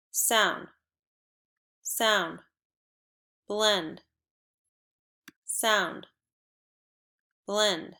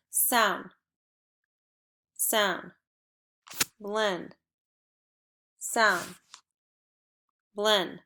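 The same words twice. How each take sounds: The two takes are said the same way.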